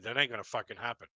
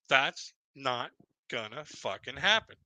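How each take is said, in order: First: It is said at normal speed. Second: It is said slowly and deliberately.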